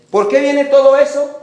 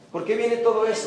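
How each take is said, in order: First: Shouted rhetorical question to the congregation; loud question. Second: Said in the usual way. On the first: Real, not acted. Preacher booming the question at the church. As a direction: call it out loud and high.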